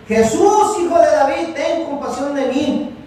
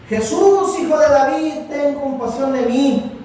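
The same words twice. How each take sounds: First: Even higher, louder plea, slowing at the end; crying out louder. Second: High, loud plea, slowing on the last words; crying out loud. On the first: Blind man shouting over the crowd that hushes him, louder high cry. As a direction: push the cry harder after being hushed. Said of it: "se puso a gritar con más fuerza". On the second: Blind man begging Jesus by the road, loud high cry. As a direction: call out to Jesus from the roadside, begging. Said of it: "y él empieza a gritar". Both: Retold or imitated.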